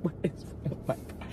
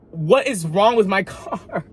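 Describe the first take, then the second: First: Much softer, breathy and voiceless; whispered repeat. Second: Higher, slow, laughing through it; incredulous and half-laughing; exasperated laugh. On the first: Muttering to herself about the broken car, whispered. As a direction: say it under your breath in despair. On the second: Car keeps breaking down, exasperated laughing question. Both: Retold or imitated.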